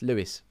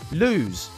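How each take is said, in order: First: The name is said as two syllables, like 'Lewis'. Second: The name is said as one syllable, like 'lose'. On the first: The speaker calls it right. "it's Lewis" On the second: The speaker calls it wrong. "It's not lose"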